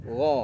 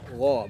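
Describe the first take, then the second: First: The gha sound is thick and full. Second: The same.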